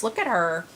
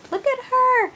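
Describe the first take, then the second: First: Said in the usual way. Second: Much higher, louder doting coo; doting coo at a sweet doll. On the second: Real, not acted. Cooing over the doll.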